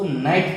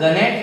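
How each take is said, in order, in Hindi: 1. यह शब्द n से शुरू होता है; g साइलेंट है। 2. यह शब्द बोले जाने वाले g से शुरू होता है। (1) "इसको नाइट पढ़ेंगे" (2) "इसको गनेट नहीं पढ़ेंगे"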